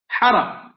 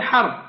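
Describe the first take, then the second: First: The word has a vowel after each consonant. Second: The word is said as one closed syllable. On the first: Plunder of wealth and family. "جاءت بتشكيلها بفتحتين" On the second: War. "حرب معروفة لنا"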